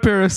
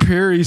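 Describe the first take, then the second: First: Paris is said with an English pronunciation. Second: Paris is said with a French pronunciation. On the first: The speaker calls it wrong. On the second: The speaker calls it right.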